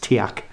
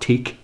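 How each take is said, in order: First: The name is said as two syllables. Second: The name is said as one syllable. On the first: The speaker calls it right. "it's Tiac" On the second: The speaker calls it wrong. "Don't say Teak, it's not Teak"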